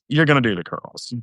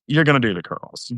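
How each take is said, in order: First: It is said in a goofy voice. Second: The same.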